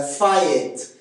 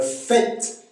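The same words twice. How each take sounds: First: "faillite" for fête, as fa-ète; Québécois diphthong. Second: Said in the usual way. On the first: Shown as a demonstration. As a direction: slowly split "faillite" into ah-eh before t. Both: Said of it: "c'est A E en accent québécois".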